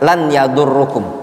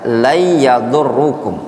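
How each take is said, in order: First: The n is pronounced clearly before the y. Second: The n merges into the following y sound. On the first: The speaker calls it wrong. "kenapa lan ya enggak lan yadurrukum" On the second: The speaker calls it right. "kenapa dibaca la yadurrukum"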